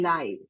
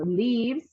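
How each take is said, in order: First: The vowel is long, as in 'five'. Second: The vowel is short, as in 'give'. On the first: It is the plural noun of life. "and a plural noun" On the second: It is the verb, as in someone lives somewhere. "a singular verb"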